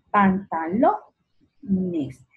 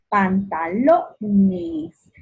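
First: "Pantalones" as pantaLO, pause, nes; stressed and split. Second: "Pantalones" very slow with LO stretched and louder; stress on LO. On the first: Teacher repeating to find the tonic, split after LO in "Pantalones". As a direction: stop after a strong LO in "Pantalones". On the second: Teacher sounding out "Pantalones", slow stress on LO. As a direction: draw out "Pantalones", leaning on LO. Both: Shown as a demonstration. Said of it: "Lo va a ser mi sílaba tónica".

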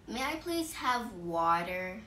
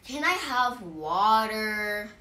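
First: Slow, polite request at normal volume; gentle-mannered, unhurried asking; caring, polite. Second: Blunt, loud, drawn-out demand; slow, demanding and not nice; rude. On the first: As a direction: ask nicely, taking your time. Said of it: "because it sounds caring". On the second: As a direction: ask rudely, louder and stretched out. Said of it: "It sounds rude. It sounds mean". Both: Shown as a demonstration.

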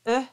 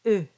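First: "E" as an open, unrounded vowel. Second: "E" with tightly rounded lips. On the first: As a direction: say "E" before rounding the lips. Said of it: "almost close to an E". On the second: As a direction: really round the lips around "E". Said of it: "really round around the sound". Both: Shown as a demonstration.

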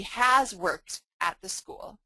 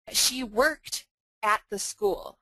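First: Has stressed and drawn out slowly with a rising tune. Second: Said in the usual way. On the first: Shown as a demonstration. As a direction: lean on has, slow and rising. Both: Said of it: "there's a really sort of subtle difference here".

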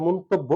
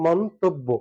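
First: "মন্তব্য" as others mistakenly write it; mistaken pronunciation. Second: "মন্তব্য" as mon-tob-bo; syllable by syllable "মন্তব্য", doubled b; correct pronunciation demo. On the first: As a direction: run "মন্তব্য" together as the faulty version. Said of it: "অনেকে অনেক জায়গায় লিখতে পারে". ("মন্তব্য"-র ভুল উচ্চারণ দেখানো) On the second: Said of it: "সঠিকটা হচ্ছে". ("মন্তব্য" ভেঙে মোন-তোব-বো) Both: Shown as a demonstration.

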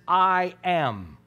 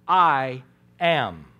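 First: Said in the usual way. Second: Lower, louder, weighty pronouncement; solemn divine declaration. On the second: Acted. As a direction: let the words land like thunder. Dramatic re-enactment of Jesus' answer.

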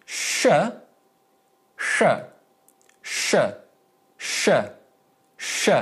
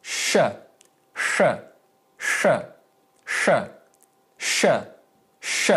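First: Sh with tongue tip up, sharper; sharp retroflex Sh sound. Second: Plain English sh, blunter. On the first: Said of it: "notice the difference". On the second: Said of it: "the first one is a little bit sharper". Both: Shown as a demonstration.

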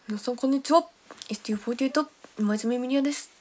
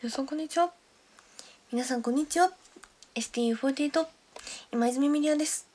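First: A light impression of the idol's greeting, slightly louder; imitating Miria. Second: A light retry of the idol's greeting; imitating Miria. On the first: Streamer imitating idol member Miria's greeting for viewers. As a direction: mimic a fellow member's self-introduction. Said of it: "ミリアの真似。". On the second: Streamer retrying her impression of member Miria's intro. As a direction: try the member's intro again. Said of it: "今似てた？".

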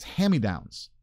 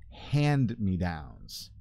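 First: "hand-me-downs" said fast as "hammy-downs"; run-together pronunciation. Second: Said in the usual way. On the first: Shown as a demonstration. Speaker showing how he usually says it, "hand-me-downs" as "hammy-downs". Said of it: "if you say it fast like me". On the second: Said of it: "if you say it fast".

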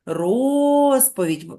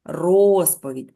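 First: "Розповідь" stretched very slowly, the first O held long; drawn-out stressed syllable. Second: "Розповідь" said slowly and firmly, each sound stretched; drawn-out word. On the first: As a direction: draw out the vowel in "Розповідь" to find the stress. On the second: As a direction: stretch "Розповідь" so the stressed O stands out. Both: Shown as a demonstration. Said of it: "ми повинні слово вимовити протяжно".

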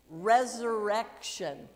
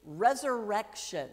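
First: Resurrection said slowly, every syllable clear; slow demo word. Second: Said in the usual way. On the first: Shown as a demonstration. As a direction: model Resurrection slowly for children to repeat. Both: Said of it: "Can you say it?".

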